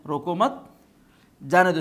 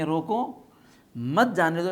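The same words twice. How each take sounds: First: روکو مت run together with مت rising, long pause, then جانے دو; روکو مت as one phrase, then a louder جانے دو; pause after مت. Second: روکو with rising end, a pause, then مت جانے دو run together; روکو set apart as if by a comma; pause after روکو. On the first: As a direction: hold a clear break before جانے دو. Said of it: "کوما یہاں کے بجائے کہاں لگائیں". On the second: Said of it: "یہاں پر روکو پر کوما لگائیں گے". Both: Shown as a demonstration.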